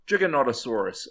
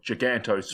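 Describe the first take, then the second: First: Four syllables come before 'saurus'. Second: Three syllables come before 'saurus'. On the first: The speaker calls it right. "I think I pronounced that right" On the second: The speaker calls it wrong. "I used to call it Gigantosaurus"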